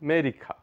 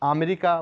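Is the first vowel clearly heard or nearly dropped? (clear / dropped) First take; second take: dropped; clear. First: The first vowel is so short it is barely heard. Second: The first vowel is clearly pronounced. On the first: The speaker calls it right. "এই লেটারটি এতই short উচ্চারণ হবে" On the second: The speaker calls it wrong. "আমরা আমেরিকা বলে থাকি"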